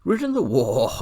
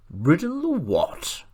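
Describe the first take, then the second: First: Scornful words breaking into a whinny; horse's neigh. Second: High, loud incredulous retort; extreme contempt. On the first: Angry talking horse turning horsey, contemptuous neighing. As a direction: start high and loud, then neigh out the last word. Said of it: "a sort of neigh". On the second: Horse retorting to boy who rode a donkey, extreme contempt. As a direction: stretch it out in high-pitched disbelief and scorn. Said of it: "retorted the horse with extreme contempt". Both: A narrator's reading.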